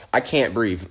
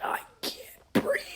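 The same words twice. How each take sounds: First: Said in the usual way. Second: Airless, crying whisper; breathless whisper. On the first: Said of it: "thinking to myself". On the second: Retold or imitated. Hurt kid whispering to his teacher, breathless and tearful. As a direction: gasp it out with no breath left. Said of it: "I'm like".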